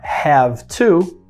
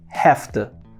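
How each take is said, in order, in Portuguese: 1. 'Have' termina com um som de v sonoro. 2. 'Have' termina com um som de f surdo. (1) "ao invés de falar have to" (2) "Então o V mudou para F"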